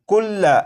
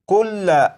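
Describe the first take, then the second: No difference in how they are said.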